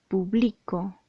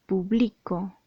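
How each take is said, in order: First: The stress is on the second syllable. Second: The same.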